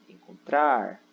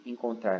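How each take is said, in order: First: "Encontrar" with TRAR drawn out and louder; stress on TRAR. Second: Said in the usual way. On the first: Shown as a demonstration. Teacher shows the tonic syllable, TRAR in "Encontrar" stretched loud. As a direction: lean hard and long on the last syllable of "Encontrar". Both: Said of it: "O trar".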